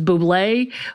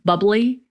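First: The word ends with an ay sound. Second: The word ends with an ee sound. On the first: "that commercial, which is [name]" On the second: "it's got that little accent mark, so it's bubbly"

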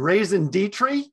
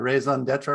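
First: It is said with an American pronunciation. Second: It is said with a French-style pronunciation.

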